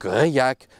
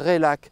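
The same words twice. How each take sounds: First: The middle consonant sounds like a Y. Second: The middle consonant sounds like an L. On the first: The speaker calls it right. "il fait « yeux »" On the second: The speaker calls it wrong. "il fait pas « le », on ne dit pas « Réac »"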